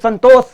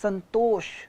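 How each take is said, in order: First: The name ends with an s sound. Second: The name ends with an sh sound. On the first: The speaker calls it wrong. "लोग नहीं बोल पाते इसलिए उल्टा सीधा sound करते हैं" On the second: The speaker calls it right. "It's संतोष"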